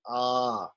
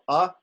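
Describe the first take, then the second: First: The vowel is held twice as long. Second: The vowel is held briefly.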